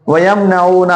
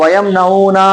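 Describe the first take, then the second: First: वयम नऊना with long ऊ and one-count ना; correct counts. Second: वयम नऊना slowly with final ना dragged long; mistaken stretching. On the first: Teacher models correct counts, वयम नऊना with short ना. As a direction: stretch ऊ, keep final ना short in वयम नऊना. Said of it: "ना एक". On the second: Teacher mimics learners' slip, वयम नऊना with long ना. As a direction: overstretch the ना ending वयम नऊना. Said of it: "कर देते हैं". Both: Shown as a demonstration.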